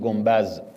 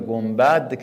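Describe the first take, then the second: First: The word ends with a z sound. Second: The word ends with a d sound. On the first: This is the older regional dialect form. "میگفتیم گنبز" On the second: This is the form used locally here. "اینجا میگن"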